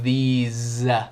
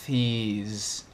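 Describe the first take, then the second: First: The th sound at the start is voiced. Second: The th sound at the start is voiceless. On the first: The speaker calls it right. "o T H também é vozeado" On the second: The speaker calls it wrong. "não é these"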